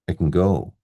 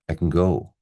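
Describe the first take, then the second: First: Can is unstressed with a reduced schwa vowel. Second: The same.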